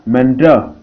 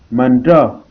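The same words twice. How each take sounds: The two takes are said the same way.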